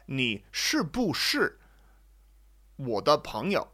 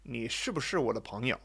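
First: Each syllable is said slowly with its full tone. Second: The syllables are said quickly with light neutral tones. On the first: "that must be how I should say it" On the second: "It's kind of quick, mostly just fifth tone"

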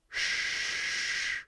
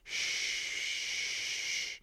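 First: A thicker sh with the tongue curled back. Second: A thinner sh with the tongue further forward. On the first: "when I switch to the retroflex tongue position. ... much thicker" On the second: "SH the normal English way"

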